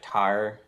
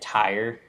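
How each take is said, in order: First: It is said flattened, sounding like 'tar'. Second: It is said with a full 'tire' vowel. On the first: "they'll be like tar" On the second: "instead of saying tire"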